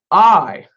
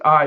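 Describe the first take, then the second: First: "I" louder and stretched, standing alone; emphatic I. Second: Said in the usual way. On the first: Shown as a demonstration. Preacher contrasting the Hebrew Anochi with an ordinary I, emphatic. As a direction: punch out "I" with full weight. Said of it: "It's emphatic". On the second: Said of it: "not just I".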